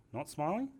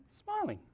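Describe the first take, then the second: First: Said in the usual way. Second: Much higher, overblown smiling tone; exaggerated smile. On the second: Shown as a demonstration. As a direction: smile hugely through the word. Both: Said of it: "Over-exaggerated level there".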